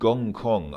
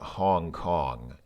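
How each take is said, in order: First: The name begins with a hard G sound. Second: The name begins with a breathy H sound. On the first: This is the Russian form of the name. "start with a G in Russian" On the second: This is the form used in other languages. "which start with an H in other languages"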